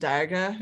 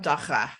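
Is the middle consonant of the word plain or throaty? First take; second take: plain; throaty. First: The middle consonant is a plain sound. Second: The middle consonant is a throaty rasp. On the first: The speaker calls it wrong. "not daga, as I was saying it" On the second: The speaker calls it right. "The middle of that word sounds just like a Hebrew letter"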